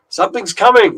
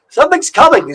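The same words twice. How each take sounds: First: It is spoken in the speaker's ordinary accent. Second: It is spoken in a put-on Irish accent. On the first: "that's where I should have done the Irish accent" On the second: "my Irish accent isn't great"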